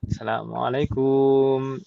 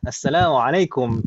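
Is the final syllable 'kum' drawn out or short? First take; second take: drawn out; short. First: The final syllable 'kum' is drawn out long. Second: The final syllable 'kum' is kept short. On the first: This is how local speakers habitually say it. The speaker calls it wrong. "Logat logat kita kan biasanya gitu nih... kum gitu kan ya. Padahal kum itu pendek" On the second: This is how native Arabic speakers say it. The speaker calls it right.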